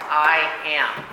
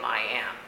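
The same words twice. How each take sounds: First: I am said louder, both words punched; emphatic I am. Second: Said in the usual way. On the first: Shown as a demonstration. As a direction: hit I am with full weight. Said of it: "It's emphatic". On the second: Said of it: "the name".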